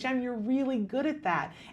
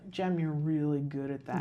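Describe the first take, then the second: First: It is said with a warm, smiling voice. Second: It is said with a sour, displeased voice. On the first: The praise feels warm and sincere. The speaker calls it right. "say it with a smile" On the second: The praise does not feel sincere. The speaker calls it wrong. "with a sour face"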